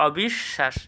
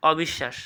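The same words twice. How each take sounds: First: "অবিশ্বাস" as অবিশ্, pause, শাশ; split pronunciation. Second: Said in the usual way. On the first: Shown as a demonstration. Teacher quizzing students, "অবিশ্বাস" split at the sh. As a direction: hold the doubled sh in "অবিশ্বাস". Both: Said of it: "এটা কী হবে".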